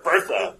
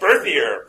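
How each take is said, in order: First: Berthier flattened to Bertha, BER-tha; Texan mispronunciation. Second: Berthier said the French way, bair-tee-AY; French pronunciation. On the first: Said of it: "Because he's, he's a Texan". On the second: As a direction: give Berthier its proper French ending. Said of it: "He's not gonna pronounce it Berthier". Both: Shown as a demonstration.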